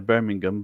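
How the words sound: It is said with an English pronunciation. "in England, um, ... We would say Birmingham"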